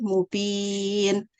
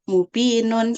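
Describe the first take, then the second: First: The word ends cut off on the consonant. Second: The word ends with a full -un ending. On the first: The reader stops at this word. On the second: The reading continues without stopping.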